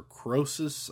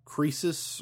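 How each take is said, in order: First: Croesus said as KROH-sus; alternative pronunciation of Croesus. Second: Croesus said as KREE-sus; first pronunciation of Croesus. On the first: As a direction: say Croesus with a long "oh" in the first syllable. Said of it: "I think Croesus is how". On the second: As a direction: say Croesus with a long "ee" in the first syllable. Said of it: "how you're supposed to say". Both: Shown as a demonstration.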